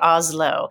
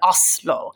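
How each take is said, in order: First: The middle consonant is a soft Z sound. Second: The middle consonant is a hard S sound. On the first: The speaker calls it wrong. "I guess I do say Oslo" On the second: The speaker calls it right. "the S is a little harder, right? It's like an Oslo"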